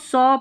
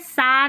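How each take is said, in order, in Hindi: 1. स्वर एक गोल होठों वाली 'aw' ध्वनि है। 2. स्वर एक खुली 'ah' ध्वनि है। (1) "इसको सॉ पढ़ना है" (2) "सा नहीं पढ़ना है"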